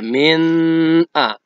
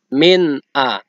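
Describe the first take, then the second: First: The n is drawn out with a nasal hum. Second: The n is short and clear, without nasal hum. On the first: The speaker calls it wrong. "Tidak boleh kita baca min a. Ya, salah" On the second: The speaker calls it right. "harus jelas, pendek, tegas"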